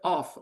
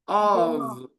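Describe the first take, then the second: First: The word ends with an f sound. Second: The word ends with a v sound. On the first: The speaker calls it wrong. "Do not pronounce O F off" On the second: The speaker calls it right. "Pronounce it of"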